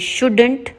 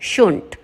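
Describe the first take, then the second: First: The word keeps its middle d sound. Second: The word drops its middle d sound. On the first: "शुड नॉट को बोलेंगे शुडंट" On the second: "इसका एक और short form आ गया"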